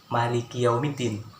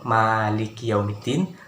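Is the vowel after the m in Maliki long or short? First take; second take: short; long. First: The vowel after the m is kept short. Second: The vowel after the m is drawn out long. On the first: "pendek seperti" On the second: "mim itu panjang"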